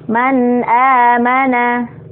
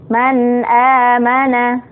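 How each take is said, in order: Both takes have the same delivery.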